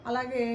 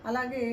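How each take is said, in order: Both takes have the same delivery.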